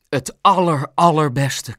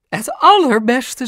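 First: Louder, unraised voice stressing "aller"; emphatic agreement. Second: High, loud, drawn-out superlative; mother gushing at full pitch. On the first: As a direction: repeat "aller" with weighty emphasis. Pap agrees, outdoing her. (nadrukkelijk beamend) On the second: Mam gushes in agreement. (hoog en uitbundig) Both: A narrator's reading.

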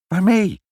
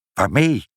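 First: High, louder exclaimed question; frantic repeat. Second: Said in the usual way. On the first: A narrator's reading. Father asks mother what to smash with, frantic. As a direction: cry the question out high and loud.

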